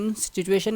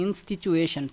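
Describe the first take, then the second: First: انسٹیٹیوشن said with a "ch" in the middle, "inst-ch-ituishan"; wrong pronunciation. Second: انسٹیٹیوشن said cleanly with a hard "t", "in-sti-tu-shan"; correct pronunciation. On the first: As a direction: give انسٹیٹیوشن the mistaken "ch" sound in the middle. (انسٹیٹیوشن کا غلط تلفظ، درمیان میں "چ" کی آواز) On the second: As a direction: say انسٹیٹیوشن with a crisp "t" and a "sh" ending. (انسٹیٹیوشن کا درست تلفظ، صاف "ٹ" اور آخر میں "شن") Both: Shown as a demonstration. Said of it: "انسٹیٹیوشن نہیں".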